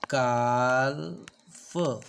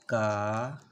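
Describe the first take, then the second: First: The L sound is pronounced before the F. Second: The L sound is silent before the F. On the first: The speaker calls it wrong. "काल्फ ऐसे बोलना है क्या, नहीं, ये wrong होगा" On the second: The speaker calls it right. "सही pronunciation बनेगा इसका काफ"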